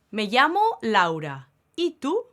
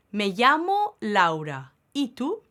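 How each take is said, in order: Both takes have the same delivery.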